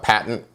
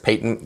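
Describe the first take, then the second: First: It is said with an American pronunciation. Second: It is said with a British pronunciation. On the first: "if you're in the United States, we say it like a patent" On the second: "if you're in Britain, we say it as patent"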